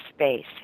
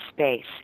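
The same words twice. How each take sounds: No difference in how they are said.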